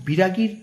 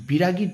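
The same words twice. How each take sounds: The two takes are said the same way.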